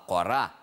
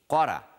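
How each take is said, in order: First: The stress is on the second syllable. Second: The stress is on the first syllable. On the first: "критически важно ставить ударение на второй слог" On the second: It means look. "Иначе вы скажете «смотри»"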